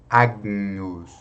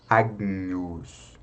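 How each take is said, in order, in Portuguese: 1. Ouve-se um G suave antes do N. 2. Ouve-se um G suave antes do N.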